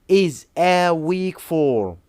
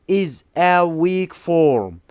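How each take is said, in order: Both takes have the same delivery.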